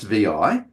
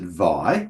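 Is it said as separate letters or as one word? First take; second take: separate letters; one word. First: It is said as two separate letter names. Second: It is said as a single one-syllable word. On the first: The speaker calls it right. "correctly pronounced V I" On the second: The speaker calls it wrong. "some people will pronounce it Vi, which is not correct"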